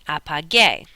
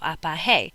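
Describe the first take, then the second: First: The middle consonant is a hard g. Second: The middle consonant sounds like an h. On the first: The speaker calls it right. "We change it from G to G U, and we get apage. Now it's correct" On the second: The speaker calls it wrong. "is pronounced like an H, so apahe"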